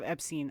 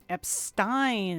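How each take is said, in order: First: The name is said the non-British way. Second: The name is said the British English way. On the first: "instead of" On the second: "luckily in British English, the pronunciation is different"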